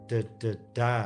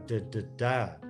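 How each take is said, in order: Both takes have the same delivery.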